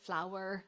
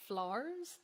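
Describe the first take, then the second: First: The word is said with two syllables. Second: The word is squeezed into one syllable. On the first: The speaker calls it right. "two syllables" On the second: The speaker calls it wrong. "like one syllable"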